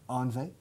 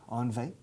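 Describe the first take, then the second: The two takes are said the same way.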